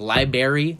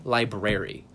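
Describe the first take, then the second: First: Library said as LIE-berry; library rhymed with berry; dropped-R pronunciation. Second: Library said as LIE-brer-ee; library with a clear BR, LIE-brer-ee; standard pronunciation. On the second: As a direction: keep both Rs in library. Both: Shown as a demonstration. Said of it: "people say library".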